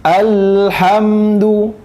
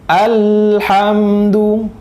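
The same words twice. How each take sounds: The two takes are said the same way.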